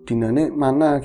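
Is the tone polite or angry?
polite. It is asked in a polite, calm tone.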